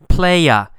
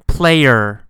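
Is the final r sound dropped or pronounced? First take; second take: dropped; pronounced. First: The final r sound is dropped. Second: The final r sound is clearly pronounced. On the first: "in normal speech, quick speech, fast speech, people will often say instead of So they say playa" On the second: "The normal pronunciation is player. You got that sound at the end"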